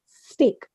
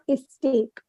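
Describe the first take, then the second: First: The word begins directly with the s sound. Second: An extra vowel sound comes before the s. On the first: The speaker calls it right. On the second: The speaker calls it wrong.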